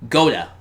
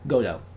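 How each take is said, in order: First: The name ends in an 'ah' sound. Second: The name ends in an 'oh' sound. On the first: The speaker calls it wrong. "Not Goda" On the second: The speaker calls it right.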